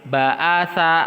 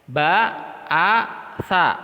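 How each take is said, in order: First: The syllables are joined without pauses. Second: The syllables are separated by pauses.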